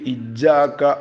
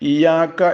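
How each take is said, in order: First: The y sound is overly hard and exaggerated. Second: The y sound is short and single. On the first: "വല്ലാതെ ശബ്ദ് കൂട്ടിയിട്ട്" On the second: "ഇയാക്ക എന്ന് ഓതരുത്"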